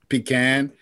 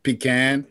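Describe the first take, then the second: First: The word is said the New Jersey way. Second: The word is said the New Jersey way.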